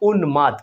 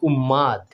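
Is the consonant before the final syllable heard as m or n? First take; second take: n; m. First: An n sound comes before the m. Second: A doubled m sound replaces the n. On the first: The speaker calls it right. "এভাবে যদি ভেঙে রেখি কিছুটা এরকম উন্মাদ" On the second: The speaker calls it wrong. "আমরা ভুল করে অনেক সময় এটাকে ম উচ্চারণ করি"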